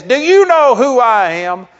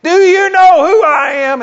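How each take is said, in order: First: Raised, pushy demand at the desk; imitating an entitled man who expects to be recognised; indignant demand. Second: Much higher, loud mock shout of a man insisting he is important; the arrogant traveller blows up at the clerk, imitated yell; outraged shout. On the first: Entitled passenger to the desk clerk, loud indignant demand. Angry traveller demanding special treatment. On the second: Entitled passenger repeating himself at the desk, outraged mock shout.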